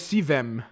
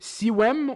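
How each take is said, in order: First: The name is said with a V sound. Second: The name is said with a W sound. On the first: "or as a V?" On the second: "should I pronounce it as a W"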